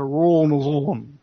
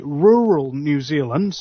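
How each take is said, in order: First: "rural New Zealand" in southern Kiwi accent, R's rolled together; South Island accent, "rural" run into one lazy syllable. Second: Said in the usual way. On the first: Shown as a demonstration. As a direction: slur "rural New Zealand" lazily, South Island style, jaw barely moving. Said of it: "they would pronounce a". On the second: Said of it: "whereas you would say".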